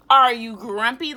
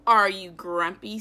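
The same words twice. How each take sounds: First: Repeated question. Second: Said in the usual way. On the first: Acted. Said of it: "He's asking Norman". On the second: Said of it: "said Jim".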